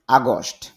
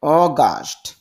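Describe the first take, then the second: First: আগস্ট with আ, as commonly said; the everyday Bangla আগস্ট; common pronunciation. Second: অগাস্ট with অ, the English way; correct pronunciation. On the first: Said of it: "যদিও আমরা আগস্ট বলি". (প্রচলিত উচ্চারণে আগস্ট) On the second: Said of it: "শুদ্ধ উচ্চারণ". (শুদ্ধ উচ্চারণে অগাস্ট) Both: Shown as a demonstration.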